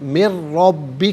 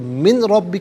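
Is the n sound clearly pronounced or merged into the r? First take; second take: merged; pronounced. First: The n merges fully into the following r. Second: The n is sounded separately before the r. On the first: The speaker calls it right. "इससे रब्बी के रॉ के साथ मिलाएंगे" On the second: The speaker calls it wrong. "का नहीं"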